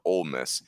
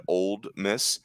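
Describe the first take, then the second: First: Said in the usual way. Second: Put-on Old Miss with the D sounded in Old; mistaken local-name pronunciation. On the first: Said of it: "none of us are that person". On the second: Shown as a demonstration. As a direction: say Old Miss as two full words, "old miss". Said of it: "a person that said Old Miss".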